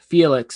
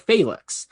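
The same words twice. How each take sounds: First: The name is said with ordinary English pronunciation. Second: The name is said with classical Latin pronunciation. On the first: This is the version of the name that was chosen. "I chose Felix" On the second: This is the technically correct Latin form. "Latin correct uh, pronunciations"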